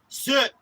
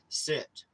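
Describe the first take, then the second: First: It is said loudly and forcefully. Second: It is said quietly, at low volume.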